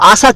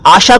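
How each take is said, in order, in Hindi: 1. बीच का व्यंजन s की आवाज़ है। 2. बीच का व्यंजन sh की आवाज़ है। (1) "आप आशा को आशा क्यों कहते हैं?" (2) "अपना उच्चारण सही कीजिए"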